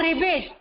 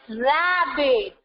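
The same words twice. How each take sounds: First: "ribbit" with a short i, as pupils wrongly say it; wrong pronunciation. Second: "rabbit" with an open a, said slowly; slow, careful "rabbit", stress the a; correct pronunciation. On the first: Teacher imitating pupils' wrong "ribbit", short i sound. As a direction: show the mistake "ribbit" with an i. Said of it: "Few of you says it ribbit". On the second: Teacher correcting pupils to "rabbit", slow and clear. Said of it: "It's not ribbit". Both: Shown as a demonstration.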